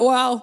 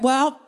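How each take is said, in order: First: It is said in a deeper voice. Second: It is said in a normal voice.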